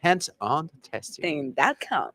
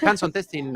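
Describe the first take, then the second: First: "Hands on testing dot com" slow, each word set apart; playfully over-enunciate "Hands on testing dot com"; very English pronunciation. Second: "hands on testing" run together casually; casual pronunciation. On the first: Retold or imitated. Host echoing guest's careful website, very English pronunciation. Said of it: "that sounded very English, very well pronounced". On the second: Shown as a demonstration. Host teasing guest with the rejected version, casual pronunciation. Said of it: "no, no, no".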